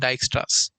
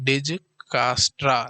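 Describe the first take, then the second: First: It starts 'dike' with no added middle vowel. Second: It starts 'dij-ka' with an added middle vowel. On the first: The speaker calls it right. "डाइक्स्ट्रास पढ़ना है" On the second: The speaker calls it wrong. "लेकिन डिजकास्ट्रा इसको पढ़ना नहीं है"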